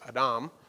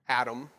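First: The word is said the original Hebrew way. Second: The word is said the familiar English way. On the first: The speaker calls it right. "it's correctly pronounced Adam" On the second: The speaker calls it wrong. "how we normally pronounce it"

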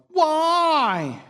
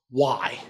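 First: The word is drawn out in a whiny tone. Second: The word is said plainly and neutrally. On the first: "It usually sounds like why?" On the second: "But it doesn't usually sound like that"

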